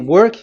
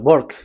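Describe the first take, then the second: First: The word starts with a W sound. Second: The word starts with a B-like sound. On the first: This is the usual way to say it. "if you say" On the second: This is how people in India say it. "W is pronounced as B. So if you say work, they say"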